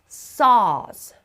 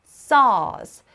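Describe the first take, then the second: Both takes have the same delivery.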